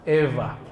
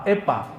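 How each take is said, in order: First: The middle consonant is soft, between w and v. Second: The middle consonant is a hard p sound. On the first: The speaker calls it right. "Antara waw dan fa" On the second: The speaker calls it wrong. "Bukan pula pa"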